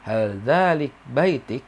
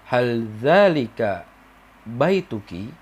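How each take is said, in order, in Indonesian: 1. Vokal akhir kata dihilangkan. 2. Vokal akhir kata diucapkan dengan penuh. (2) "tapi kalau kita biasa aja"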